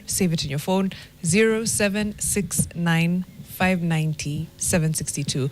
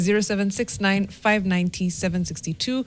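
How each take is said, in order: First: It is read slowly. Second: It is read at a normal speed.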